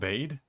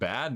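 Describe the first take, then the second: First: The vowel is long, as in 'made'. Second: The vowel is short, as in 'bad'. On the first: "not bade?" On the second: "that's pronounced bad"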